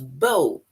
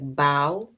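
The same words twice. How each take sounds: First: The vowel sounds like the one in low. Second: The vowel sounds like the one in how. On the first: A ribbon tied in the hair. "it sounds with low" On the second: Bending forward to thank an audience. "it sounds like how"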